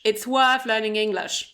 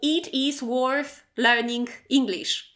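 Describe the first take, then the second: First: The words are contracted and run together. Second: Every word is said fully and separately. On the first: The speaker calls it right. "instead of" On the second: The speaker calls it wrong. "your English will sound very robotic"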